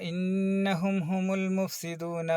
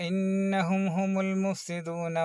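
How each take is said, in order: Both takes have the same delivery.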